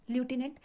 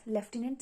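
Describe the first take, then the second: First: Lieutenant said as "loo-TEN-ant", no F sound; lieutenant pronounced "lew-tenant"; American lootenant. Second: Lieutenant said as "lef-TEN-ant", with an F sound; lieutenant pronounced "leftenant"; British leftenant. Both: Shown as a demonstration. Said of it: "some people pronounce it as".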